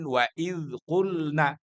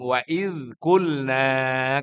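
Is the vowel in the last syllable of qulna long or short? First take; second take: short; long. First: The last vowel of qulna is cut short. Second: The last vowel of qulna is held long. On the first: The women said. The speaker calls it wrong. "kalau dipendekin" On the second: We, God, said. The speaker calls it right. "kalau panjang"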